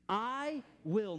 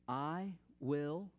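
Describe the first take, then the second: First: It is spoken loudly with strong authority. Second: It is spoken quietly and softly. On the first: "say it with authority" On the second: "just quietly make this declaration"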